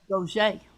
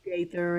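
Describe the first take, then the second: First: The name is said like Gaucher, with a sh. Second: The name is said like Gaither, with a th. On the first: This is how it is said where the speaker grew up. "down in Thibodeau, where I was uh, pretty much raised, it's" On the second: This is how it is said in Nashville. "here in Nashville"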